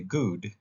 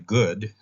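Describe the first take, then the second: First: The vowel is long, rhyming with food. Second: The vowel is short, as in hood. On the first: This is how these speakers say it. "they say good, rhyming with food" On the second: This is how the speaker's own group says it. "They don't say good like we do"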